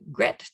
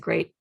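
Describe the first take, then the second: First: The vowel is a short e sound. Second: The vowel is a long ay sound. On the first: The speaker calls it wrong. "as it's pronounced in the word head" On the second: The speaker calls it right. "the E A pronounced as in steak"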